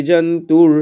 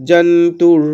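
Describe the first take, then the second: No difference in how they are said.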